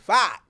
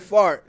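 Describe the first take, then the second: First: The word is said without the r sound. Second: The word is said with a clear r sound. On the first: "he says fart. Like right, it's F-A-H-T" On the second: "Instead of saying fart"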